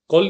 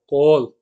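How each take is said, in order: First: The o vowel is short. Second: The o vowel is long. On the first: The speaker calls it wrong. "कोल नहीं होगा" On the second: The speaker calls it right. "बड़ा ओ"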